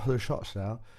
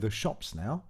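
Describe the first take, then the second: First: The consonants are slurred and barely articulated. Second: The consonants are crisp and clearly articulated. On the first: The speaker calls it wrong. "if I spoke without using my tongue to articulate" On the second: The speaker calls it right. "that's clearly uh, much clearer and better"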